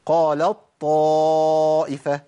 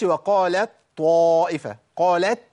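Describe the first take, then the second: First: قالت طائفة as qālaṭ-ṭā'ifa, slow with long held ā; ta becomes ṭa. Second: وقالت طائفة with a separate audible ت before the ط; no merging, wrong. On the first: Teacher reciting correct idgham, قالت طائفة drawn out, merged. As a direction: drop the ت and press on a doubled ط in قالت طائفة. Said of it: "بشيل التاء وأبدلها بطاء". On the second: Teacher showing the mistake, وقالت with a clear unmerged t. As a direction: keep the ت of قالت sounded and apart, slowly. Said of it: "ما أقولش". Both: Shown as a demonstration.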